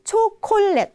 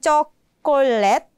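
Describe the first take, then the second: First: It is said with strongly breathy consonants. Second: It is said like the English word. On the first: The speaker calls it right. "Semua pakai H" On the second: The speaker calls it wrong. "Bukannya chocolate"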